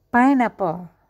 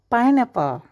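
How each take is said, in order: Both takes have the same delivery.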